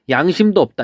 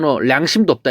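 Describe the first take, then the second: First: The first word begins with a Y sound. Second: The first word begins with an L sound. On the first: The speaker calls it right. "양심도 없다 이렇게 표현하잖아요" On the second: The speaker calls it wrong. "너 량심도 없다 이렇게 해요? 아니죠"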